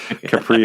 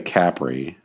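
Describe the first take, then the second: First: It is said with an American pronunciation. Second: It is said with an Italian pronunciation. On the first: "the Americans not... would probably say Capri Holdings" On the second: "I think the Italians would say Capri"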